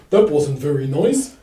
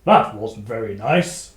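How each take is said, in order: First: Retelling the dog. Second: Gruff dog warrior. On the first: Retold or imitated. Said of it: "Ember kind of goes". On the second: Acted. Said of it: "take his war, warhound".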